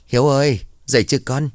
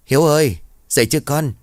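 First: Raised voice calling through a closed door; mother calls her son awake, voice raised to carry. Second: Higher, louder call through the door; calling again louder. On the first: Mother calling her son through the door, raised voice. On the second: Mother knocks again and calls her silent son, louder. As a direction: call him again, pushing the voice to carry. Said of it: "gõ cửa rồi hỏi tiếp". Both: Acted.

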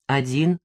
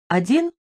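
First: ОДИН answered low, without the questioning leap; short, lower-pitched reply on ОДИН; confirming answer. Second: ОДИН asked with a high rising end; short rising query on ОДИН; questioning. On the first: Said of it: "резюмировала я". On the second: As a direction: lift ОДИН sharply upward as a question. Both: A narrator's reading.

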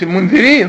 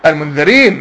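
First: المنذرين as "al-mundhirīn"; rejected kasra reading. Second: المنذرين as "al-mundharīn"; correct fatha reading. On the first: Teacher rejecting the wrong word, rejected kasra reading. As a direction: put "dhi" inside المنذرين. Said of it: "مش المنذرين". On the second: Teacher confirming the right word to students, correct fatha reading. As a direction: say المنذرين with "dha", lower pitch. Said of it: "بالفتح". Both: Shown as a demonstration.

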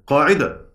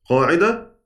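No difference in how they are said.

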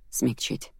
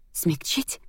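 First: Soft, subdued statement; understated reply, kept soft; quiet answer. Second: Incredulous question, rising at the end; a touch of mocking amusement, pitched above his answer; scornful laughing echo. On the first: Man explaining his offer to the angry heroine, quiet answer. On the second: Heroine throwing his word back, mildly laughing echo. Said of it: "рассмеялась я". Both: A narrator's reading.

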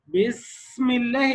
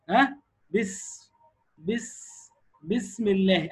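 First: Slow بسم الله with a heavy, over-long س; exaggerated hams. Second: بس then بسم الله, the breath easing out on س; natural hams demo. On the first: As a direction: overdo the hiss on the س of بسم. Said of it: "خف عليها شويه". (مبالغة في همس سين بسم الله) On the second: Shown as a demonstration. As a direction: teach بسم الله slowly with a light airy س. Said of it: "قول كده اهو". (همس سهل في سين بسم الله)

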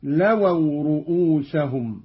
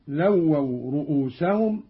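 First: "لووا" as "lawaw", single undoubled w; lightened waw. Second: Said in the usual way. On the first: Shown as a demonstration. Teacher demonstrating Qalun, "لووا" with light waw. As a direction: say "لووا" without doubling the first waw. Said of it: "بتخفيف الواو، هكذا". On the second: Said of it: "قرأ قالون بتخفيف الواو".

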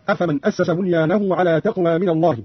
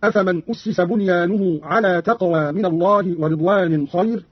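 First: Said in the usual way. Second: "أسس" as ussisa, "بنيانه" as bunyanuhu; Qalun passive reading. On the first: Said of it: "قرأ قالون بضم الهمز". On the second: Shown as a demonstration. Teacher demonstrates Qalun's passive, "أسس" read ussisa. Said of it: "بضم الهمز وكسر السين مشددة".

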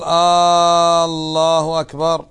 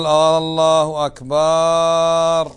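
First: "آه، الله أكبر" drawn out with a rising, doubtful question tune; questioning Allahu akbar. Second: "الله أكبر" said as a firm, very slow declaration; correct takbir. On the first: Teacher demonstrating the wrong questioning takbir. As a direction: ask "الله أكبر" as if asking whether it is so. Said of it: "صار استفهام". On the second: Teacher demonstrating the correct takbir. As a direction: proclaim "الله أكبر" slowly and steadily. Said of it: "ولا تقول". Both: Shown as a demonstration.

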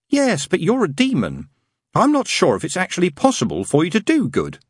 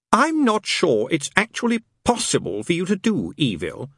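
First: Prim, earnest angel voice, pitched higher; a fussy angel stating a rule sincerely. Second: Dry sarcasm, pitched higher; mock the angel's own words back at him; sarcastic demon. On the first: Acted. Angel telling the demon he can't do good, earnestly prim. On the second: Demon throwing the angel's words back, sarcastic. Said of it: "said Crawley sarcastically".

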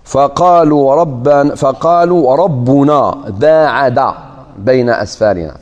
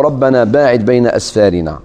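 First: "ربنا" with a u vowel as rabbuna, said slowly; nominative reading. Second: "ربنا باعد" recited with an a vowel on rabbana; Quranic recitation. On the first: Teacher reciting the nominative reading for the class. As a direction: recite "فقالوا ربنا باعد" slowly, rabbuna then baa'ada. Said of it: "قراءة أخرى بالرفع". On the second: Teacher reciting the first reading of the Saba verse. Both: Shown as a demonstration.

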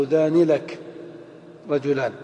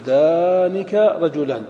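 First: ذاني لك said with an added lām, as the form to avoid; wrong form. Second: ذانك رجلان slow and careful, kāf without lām; right form. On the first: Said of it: "ولا تقول". (نطق ذاني لك الخاطئ بتمهل) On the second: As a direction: model ذانك رجلان as the correct answer. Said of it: "تقول". (نطق ذانك رجلان الصحيح ببطء) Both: Shown as a demonstration.

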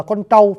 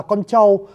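First: "trâu" with a curled-tongue "tr"; clear southern retroflex. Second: "trâu" softened to "châu", tongue not curled; northern pronunciation. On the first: Teacher shows what northerners cannot say, retroflex "tr" in "trâu". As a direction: curl the tongue back firmly on "trâu". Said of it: "chứ họ không đọc ra được là". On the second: Teacher imitates northern speakers for viewers, unclear "ch" in "trâu". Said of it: "miền Bắc đọc âm này không rõ". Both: Shown as a demonstration.

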